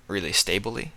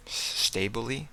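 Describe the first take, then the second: First: Said in the usual way. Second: Higher, softer, doubting the word; puzzled rising question. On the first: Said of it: "Stably? That's a strange word". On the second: Real, not acted. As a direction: question the word Stably with a rise. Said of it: "That's a strange, strange word".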